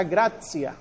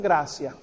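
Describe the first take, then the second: First: GRACIA said GRAT-sia; older TS sound. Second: GRACIA said GRA-sia; a plain s in gracia, no t; softened to S. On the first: Teacher showing the older sound to students, gracia with ts. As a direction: put a t before the s in gracia. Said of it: "como si fuera T S". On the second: Teacher showing what the word degenerated into, gracia with s. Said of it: "va degenerando en gracia". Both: Shown as a demonstration.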